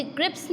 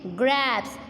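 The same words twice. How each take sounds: First: ग्रिप्स with a quick, short vowel; ग्रिप्स, vowel cut short; wrong short vowel. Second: ग्रैब्स as "grapes", the A held long; long vowel. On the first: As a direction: say ग्रिप्स fast as a wrong example. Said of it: "अब हम इसे ग्रिप्स नहीं पढ़ेंगे". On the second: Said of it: "थोड़ा ए का sound लंबा होता है". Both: Shown as a demonstration.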